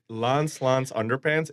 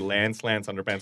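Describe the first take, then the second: First: It is spoken in a non-American accent. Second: It is spoken in an American accent. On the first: "my accent doesn't do it right" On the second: "in the American accent"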